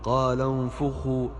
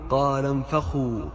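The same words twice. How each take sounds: First: The f sound is followed by a u vowel. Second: The f sound is followed by an a vowel. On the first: The speaker calls it right. "الفاء مضمومة" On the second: The speaker calls it wrong. "وليست مفتوحة"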